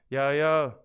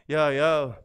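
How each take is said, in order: No difference in how they are said.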